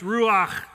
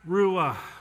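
First: The word is said in a plain voice. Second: The word is breathed out like a breath.

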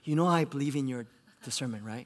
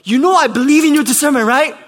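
First: It sounds unencouraging, without warm support. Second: It sounds encouraging, with a hint of frustration.

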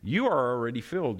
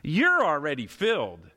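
First: It is read in a plain, neutral tone. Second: It is read in a mocking, sarcastic tone.

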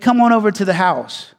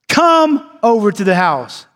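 First: It is said as a plain, ordinary statement. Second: It is said as a firm, commanding order. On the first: It simply describes or invites, not an order. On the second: It is an order to be obeyed.

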